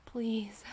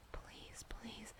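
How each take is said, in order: First: Voiced, louder begging please; urgent plea. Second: Barely audible breathy please; whispered plea. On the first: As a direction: push the please. out with need. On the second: Acted. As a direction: breathe the Please, almost silently. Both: Begging in intimate roleplay.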